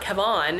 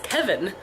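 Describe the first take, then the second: First: The name is said as it is spelled, Kevon. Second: The name is said to sound like Kevin. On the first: This is how other people mispronounced the name. The speaker calls it wrong. "people called him all the time Kevon" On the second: This is how the name's owner says it. The speaker calls it right. "my name's not Kevon, it's Kevin"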